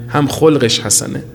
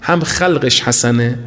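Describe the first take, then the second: First: خلقش said as kholqesh, with an o, meaning his character; slow, stressed خلقش as kholqesh, set against khalqesh; kholq sense. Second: خلقش said as khalqesh, with an open a, meaning his looks; slow and deliberate: خلقش as khalqesh, not kholqesh; khalq sense. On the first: Preacher shows the second reading of خلقش, slowly stressing kholqesh. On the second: Preacher shows the first reading of خلقش, slowly stressing khalqesh. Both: Shown as a demonstration. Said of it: "به دو اعتبار حسن است".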